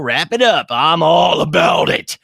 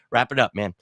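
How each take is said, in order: First: Loud, high, drawn-out hype yell; enthusiastic shout. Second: Said in the usual way. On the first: Real, not acted. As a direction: belt it out with gusto. Shouting approval of chat's pun.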